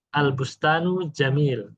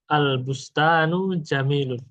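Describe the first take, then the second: First: The final vowel ending is dropped. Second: The final vowel ending is fully pronounced. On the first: This is the pausal reading at a stop. "ketika waqaf, itu harokat akhirnya tidak dibaca" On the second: This is the complete reading without stopping. "Kalau dibaca lengkap ya"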